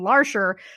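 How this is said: The name is said with an American pronunciation. The speaker calls it wrong. "I pronounce it phonetically like an American"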